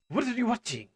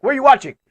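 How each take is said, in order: First: Toned-down demand. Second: High, very loud mock interrogation; shouted demand. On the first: Acted. Repeats the police question, toned down. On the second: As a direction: bellow it like police at the door. Acts police knocking at the door.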